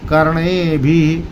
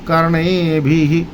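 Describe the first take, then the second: The two takes are said the same way.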